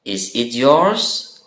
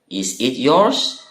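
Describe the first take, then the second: The two takes are said the same way.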